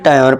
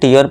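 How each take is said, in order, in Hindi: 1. अक्षरों को 'tayar' पढ़ा जाता है। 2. अक्षरों को 'teeyar' पढ़ा जाता है। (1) "या फिर टायर पढ़ जाते हैं" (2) "कई बार मेरे दोस्त से क्या पढ़ते हैं, टीयर पढ़ देते हैं"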